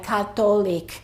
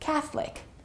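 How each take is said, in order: First: The middle O vowel is pronounced. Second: The middle O vowel is dropped. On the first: The speaker calls it wrong. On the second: The speaker calls it right. "the O disappears and it's only two syllables"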